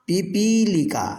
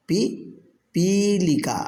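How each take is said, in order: First: Said in the usual way. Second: पिपीलिका drawn out very slowly with a falling end; slow model repeat. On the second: Shown as a demonstration. Teacher repeats पिपीलिका slowly for students to copy. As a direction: stretch पिपीलिका so the class can echo it. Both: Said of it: "अब आप उच्चारण कीजिए".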